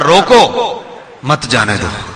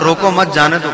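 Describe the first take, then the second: First: The pause comes after 'roko'. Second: The pause comes after 'mat'.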